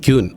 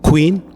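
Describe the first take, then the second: First: The word begins with a 'ky' sound. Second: The word begins with a 'kw' sound. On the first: The speaker calls it wrong. "നമ്മൾ മിക്കവാറും എല്ലാവരും പറഞ്ഞ" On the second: The speaker calls it right. "അതല്ല എൻ്റെ ശരി"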